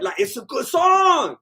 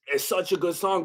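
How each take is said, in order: First: High, slow, loud gushing; swooning shout of praise; excited praise. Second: Said in the usual way. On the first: Real, not acted. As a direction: belt out how much you love it. Gushing over the song.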